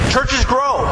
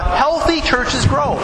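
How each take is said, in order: First: Said in the usual way. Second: Healthy churches grow, slowly, leaning hard on healthy; slow down and punch healthy; stress on healthy. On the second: Shown as a demonstration. Pastor driving home his point, slow stress on healthy. Repeats the phrase for emphasis.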